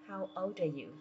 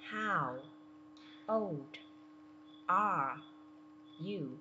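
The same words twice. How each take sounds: First: The words run together quickly, old linking into are. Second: Each word is said separately and slowly. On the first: "nối qua chữ are, mình sẽ đọc nhanh thành" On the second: "Mình đọc từng chữ theo cô nhé"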